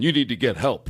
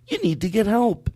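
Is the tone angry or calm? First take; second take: angry; calm. First: It is said in an aggressive, angry tone. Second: It is said in a calm, caring tone.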